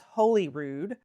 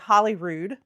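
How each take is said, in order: First: The first part sounds like 'holy'. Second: The first part sounds like 'holly'. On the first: The speaker calls it right. "and it's Holyrood" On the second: The speaker calls it wrong. "I was saying Holyrood ... we think Hollywood"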